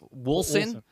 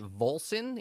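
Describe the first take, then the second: First: The name begins with a W sound. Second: The name begins with a V sound. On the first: The speaker calls it right. "And it's Wolson" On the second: The speaker calls it wrong. "some people are calling it Volson, even though it's a W"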